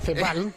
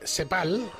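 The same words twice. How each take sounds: First: The first sound is a 'th' sound. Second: The first sound is an 's' sound. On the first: "con la Z" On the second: "lo voy a pronunciar CEPAL"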